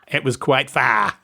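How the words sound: It is said in an Australian accent.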